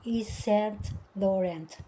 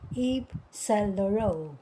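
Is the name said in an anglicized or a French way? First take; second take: anglicized; French. First: The name is said with anglicized sounds. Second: The name is said with French sounds. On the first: The speaker calls it wrong. "hindi pala Yves Saint Laurent. Mali pala yun" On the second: The speaker calls it right. "Ang dapat palang bigkas dito ay"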